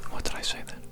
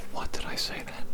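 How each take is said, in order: Both takes have the same delivery.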